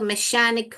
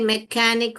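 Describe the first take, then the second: First: The middle consonant is a sh sound. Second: The middle consonant is a k sound. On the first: "श पढ़ेंगे तो मैशानिक हो जाएगा" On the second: "क पढ़ेंगे मैकेनिक हो जाएगा"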